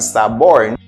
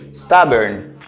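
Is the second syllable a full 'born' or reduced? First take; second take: full born; reduced. First: The second syllable sounds like a full 'born'. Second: The second syllable is short and reduced. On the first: The speaker calls it wrong. "nou pale de born, men loske l kombine a mou sa, nou pa di stubborn" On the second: The speaker calls it right. "nou di stubborn"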